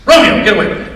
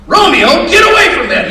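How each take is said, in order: First: Mildly raised voice, higher; acted scolding. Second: High, loud shout at a dog; acted yell. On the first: Owner calling his dog off gasoline, acted scolding. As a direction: call the dog off sharply. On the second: Owner catching dog drinking gasoline again, acted yelling.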